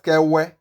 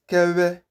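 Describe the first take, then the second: First: The middle sound is a plain voiced w. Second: The middle sound is air squeezed through lips. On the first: The speaker calls it wrong. "not Kewe" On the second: The speaker calls it right. "It is Kewe, ... like you are trying to squeeze air through your lips"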